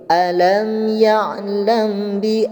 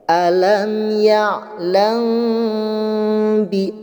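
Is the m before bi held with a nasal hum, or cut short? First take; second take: short; held. First: The m is cut short without a nasal hum. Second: The m is held with a long nasal hum. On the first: The speaker calls it wrong. "hanya ada ikhfa'nya saja tapi tidak disertai dengan hukum gunnahnya" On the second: The speaker calls it right. "ditahan terlebih dahulu selama dua harokat di dalam suara huruf M-nya"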